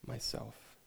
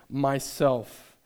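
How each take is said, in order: First: It is whispered very softly. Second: It is said loud, clear and bright.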